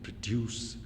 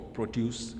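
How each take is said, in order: First: The stress is on the second syllable. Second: The stress is on the first syllable. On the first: It is used as a verb. "the second for the verb" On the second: It is used as a noun. "the first syllable is stressed for noun"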